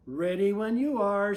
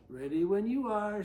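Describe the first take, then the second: First: Shouted. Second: Said in the usual way. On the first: Acted. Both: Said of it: "Susie shouted".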